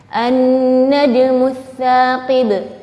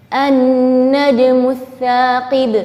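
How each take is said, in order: No difference in how they are said.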